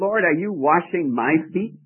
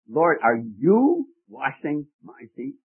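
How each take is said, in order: First: No word gets special stress. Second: The word you is strongly stressed.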